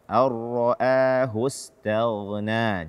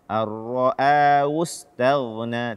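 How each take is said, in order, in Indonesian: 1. Bunyi h diucapkan dengan jelas. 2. Bunyi h dihilangkan.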